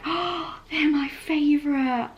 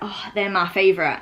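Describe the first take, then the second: First: It sounds warm and enthusiastic. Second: It sounds flat, almost sarcastic.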